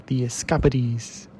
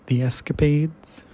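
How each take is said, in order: First: "Escapades" said as es-KAH-puh-deez; quirky pronunciation. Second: Said in the usual way. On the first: Shown as a demonstration. Poetry reader playing with the title, quirky "Escapades" as es-KAH-puh-deez. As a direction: stress the second syllable of "Escapades", ending it in "-deez". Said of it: "if you're feeling quirky, you could say". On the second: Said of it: "or if you're feeling quirky".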